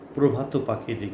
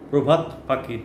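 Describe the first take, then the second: First: The first word ends with an added 'o' vowel. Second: The first word ends on a bare consonant. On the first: The speaker calls it right. "কিন্তু প্রভাত পাখির গান" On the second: The speaker calls it wrong. "প্রভাত পাখির নয়"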